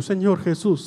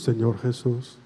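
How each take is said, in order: First: Said in the usual way. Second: Soft echoed prayer. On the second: Shown as a demonstration. Priest models the prayer for the girl to repeat, softly. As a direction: lower and softer, like the response. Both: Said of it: "Reza conmigo".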